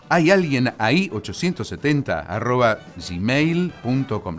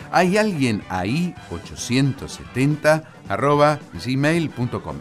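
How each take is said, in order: First: It is said fast. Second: It is said slowly.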